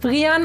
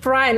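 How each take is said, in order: First: The name is said with a Danish pronunciation. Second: The name is said with an English pronunciation. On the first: This is the person's actual name. The speaker calls it right. "Du heißt Brian ... Ist das eine dänische Form von Brian?" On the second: This is not the person's name. The speaker calls it wrong. "und nicht Brian"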